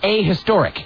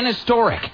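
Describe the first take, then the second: First: The article is said as 'a' before historic. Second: The article is said as 'an' before historic. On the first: The speaker calls it right. "It's a historic" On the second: The speaker calls it wrong. "It's wrong"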